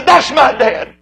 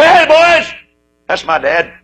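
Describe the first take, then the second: First: Proud claim. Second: Proud call. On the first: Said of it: "if he could just say". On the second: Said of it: "point with pride and say". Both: Pretend.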